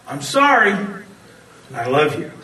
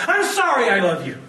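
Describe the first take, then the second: First: Said in the usual way. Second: Exasperated snap. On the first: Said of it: "four little words". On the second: Shown as a demonstration. To the woman at date's end, annoyed apology. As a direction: toss it off in frustration, annoyed. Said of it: "Not quite the same, is it?".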